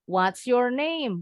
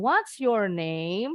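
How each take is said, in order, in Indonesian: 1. Nadanya turun di akhir. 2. Nadanya naik di akhir. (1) "Harus intonasinya turun"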